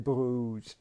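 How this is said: It is said the French way.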